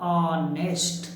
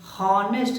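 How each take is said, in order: First: The word begins with a vowel sound. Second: The word begins with an h sound. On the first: The speaker calls it right. "इसको पढ़ा जाता ऑनेस्ट" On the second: The speaker calls it wrong. "हॉनेस्ट नहीं पढ़ा जाता है"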